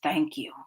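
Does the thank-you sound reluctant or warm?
reluctant. It is said reluctantly after a sigh.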